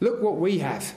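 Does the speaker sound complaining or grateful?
complaining. It is said in a complaining, grumbling tone. Dissatisfaction with what has been received. "Yeah, there's water, but where's the meat?"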